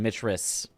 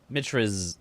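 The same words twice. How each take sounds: First: The name ends with a hissing s sound. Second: The name ends with a buzzing z sound. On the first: The speaker calls it wrong. "It's a harsher sound" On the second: The speaker calls it right. "it's easier to end on Limgrave"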